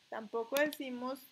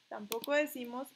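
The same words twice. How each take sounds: The two takes are said the same way.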